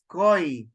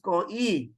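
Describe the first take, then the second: First: The vowels merge into a single syllable. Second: The vowels are split into two syllables. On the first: The speaker calls it right. "You read it as koi. So just one syllable" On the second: The speaker calls it wrong. "You do not read this as ko-e"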